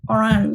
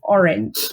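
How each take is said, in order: First: It is pronounced the French way, oh-RAHNZH. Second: It is pronounced as the English word orange. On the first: This is how the name is said in French-speaking countries. "feel a lot more sophisticated" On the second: This is how the speaker always thought of the name. "in my head it has always been Orange"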